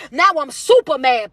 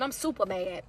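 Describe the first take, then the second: First: Said in the usual way. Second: Much softer, lower, almost under the breath; reading a comment softly. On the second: Retold or imitated. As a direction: murmur the comment as if reading it off the screen.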